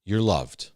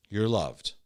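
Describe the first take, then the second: First: Low, gentle and kind; tender reassurance. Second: The same words, much softer, almost a hush; softer, hushed reassurance. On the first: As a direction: reassure someone who is hurting. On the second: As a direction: let "You're loved" fade into a gentle hush. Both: Acted. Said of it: "mercy comes in and goes".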